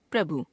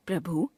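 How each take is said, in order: First: Said in the usual way. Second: प्रभु ending on long ऊ; wrong pronunciation. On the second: Shown as a demonstration. Teacher showing a common error, प्रभु with long last vowel. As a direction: stretch भु to भू in प्रभु. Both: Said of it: "अशुद्ध".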